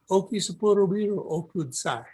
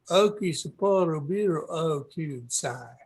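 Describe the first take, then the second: First: It is said without a Southern American accent. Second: It is said with a Southern American accent.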